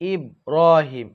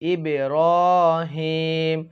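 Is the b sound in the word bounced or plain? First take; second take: plain; bounced. First: The b sound is plain, with no echoing bounce. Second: The b sound is bounced with a slight echo. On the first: The speaker calls it wrong. "অনেকেই বলে ইব্রাহিম, এটা বলবেন না" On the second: The speaker calls it right. "বলবেন ইব্রাহিম, কারণ বা শব্দটি হচ্ছে কলকলার শব্দ"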